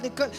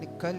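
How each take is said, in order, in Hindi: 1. आदेश ज़ोर से और बार-बार चिल्लाकर कहा गया है। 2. आदेश बिना चिल्लाए, शांति से कहा गया है। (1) "निकाल निकल करते हैं" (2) "वो बोलते हैं निकल यीशु के नाम से"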